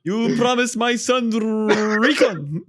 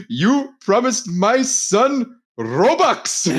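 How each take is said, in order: First: Slow, high mock Indian accent breaking into a laugh. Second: Slow, high mock Indian accent, laughing through it. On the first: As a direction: imitate the Indian accent again, slowly, laughing. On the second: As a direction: drag out a put-on Indian accent while cracking up. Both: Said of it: "like that Indian guy".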